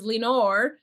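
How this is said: The name is said with an English accent. "we can pronounce it the gringo style"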